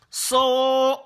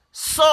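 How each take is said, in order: First: "So" held long and high; sustained, level, raised "So"; drawn-out vowel. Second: "So" said brief, high and loud; quick, raised "So"; short vowel. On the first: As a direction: stretch the vowel of "So". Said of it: "Si on veut tirer le". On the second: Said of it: "les voyelles brèves". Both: Shown as a demonstration.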